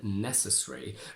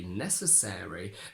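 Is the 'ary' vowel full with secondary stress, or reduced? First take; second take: reduced; full. First: The 'ary' vowel is short and unstressed. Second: The 'ary' vowel is long with secondary stress. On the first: It is the less common form. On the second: It is the more common form.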